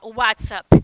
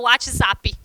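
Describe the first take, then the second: First: It is pronounced the original English way. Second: It is pronounced the Brazilian Portuguese way. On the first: This is how people in the place of origin say it. "Lá eles não vão falar o WhatsApp" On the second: This is how people here say it. "a gente fala WhatsApp"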